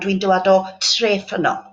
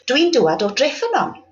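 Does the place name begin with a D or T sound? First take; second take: T; D. First: The place name begins with a T sound. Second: The place name begins with a D sound. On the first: The speaker calls it wrong. "rather than" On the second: The speaker calls it right. "It's easier to say"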